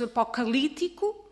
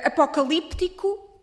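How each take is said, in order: First: No p sound is heard before the t. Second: A p sound is pronounced before the t. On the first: "Apocalíptico versus apocalítico" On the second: "Apocalíptico versus apocalítico"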